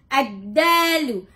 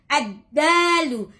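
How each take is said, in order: No difference in how they are said.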